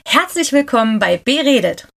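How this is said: It is said in a happy tone.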